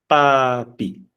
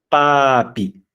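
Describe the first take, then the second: No difference in how they are said.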